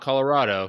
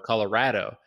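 First: The third syllable has an 'ah' vowel, like 'rod'. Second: The third syllable has an 'a' vowel, like 'rad'. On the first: This is how non-natives say the name. The speaker calls it wrong. "not Colorado" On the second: This is how natives of the state say the name. The speaker calls it right. "The rad and in place of the rod"

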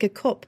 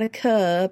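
First: The word is said in a Northern English accent. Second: The word is said in a non-Northern accent. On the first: The speaker calls it right. "but we're going to drink a cup, love" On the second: The speaker calls it wrong. "not a cup"

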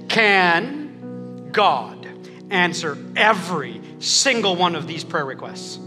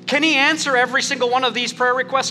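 First: It is said at a slower pace. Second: It is said at a normal, quicker pace.

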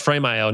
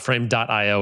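First: The name is said without the word dot. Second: The name is said with the word dot. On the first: The speaker calls it right. "So it's Frame.io" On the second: The speaker calls it wrong. "not Frame.io, which is what I've been calling it for years"

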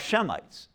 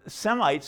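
First: The word begins with an 'sh' sound. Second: The word begins with an 's' sound. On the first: "Shemitic is actually how it should be pronounced" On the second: "Semites are not"

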